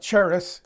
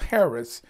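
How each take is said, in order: First: The word begins with a hard K sound. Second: The word begins without a hard K sound. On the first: The speaker calls it wrong. "It looks like charis" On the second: The speaker calls it right. "it's pronounced without the hard C. It's charis"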